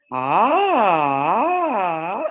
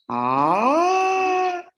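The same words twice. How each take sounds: First: Ah rising then falling low, wavering. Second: Long held ah, high and rising. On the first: Teacher to class, demonstrating a low tone. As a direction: swoop down into a low pitch. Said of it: "un tono grave". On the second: Teacher to class, demonstrating a high pitch. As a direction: slide up and hold the top. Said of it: "hagan un tono así hacia arriba". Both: Shown as a demonstration.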